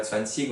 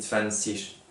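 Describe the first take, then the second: First: Zwanzig ending in a hard g sound; wrong pronunciation. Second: Zwanzig ending in a soft ich sound; correct pronunciation. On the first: Teacher to French pupils showing the wrong ending: hard g. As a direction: say zwanzig with a hard final g, the mistake to avoid. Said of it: "on dit pas zwanzig". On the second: Teacher to French pupils showing the right ending: soft ich sound. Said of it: "on dit zwanzig". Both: Shown as a demonstration.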